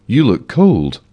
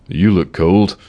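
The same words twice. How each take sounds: First: Repeated with extra concern; more concerned. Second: Said in the usual way. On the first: A narrator's reading. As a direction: say it again, showing more care. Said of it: "increasing the amount of concern". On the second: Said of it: "he observed".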